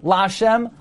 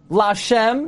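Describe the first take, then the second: First: "lashem" with LA stressed, SHEM lighter; stress on first syllable. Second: "lashem" with SHEM stressed; stress on last syllable. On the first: Teacher showing the form to avoid, LA stressed in "lashem". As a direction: lean on LA in "lashem". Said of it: "not lashem". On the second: Teacher showing God's name is milra, SHEM stressed in "lashem". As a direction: hit SHEM at the end of "lashem". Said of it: "God's name is always a milra". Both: Shown as a demonstration.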